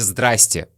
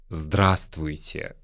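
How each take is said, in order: First: Some syllables are dropped from the greeting. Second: Every syllable of the greeting is pronounced. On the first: This is the everyday casual form. "Чаще всего на улице... вы услышите «здрасте»" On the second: This form is rarely used in everyday speech. "очень редко мы говорим здравствуйте"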